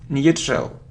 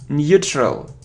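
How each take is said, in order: The two takes are said the same way.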